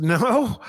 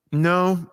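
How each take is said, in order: First: Higher, questioning NO; mock disbelief on a raised NO; taken-aback echo. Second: Falling, answering NO; NO as a statement, not a question; retold firm no. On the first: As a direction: echo NO back as a puzzled question. Speaker echoes the answer, taken aback. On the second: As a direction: say NO as a settled answer. Guy's blunt answer to church question.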